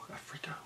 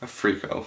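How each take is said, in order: First: Breathy whispered freako. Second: Said in the usual way. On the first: Shown as a demonstration.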